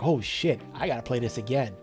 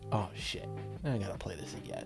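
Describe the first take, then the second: First: It sounds excited and eager. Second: It sounds frustrated and annoyed.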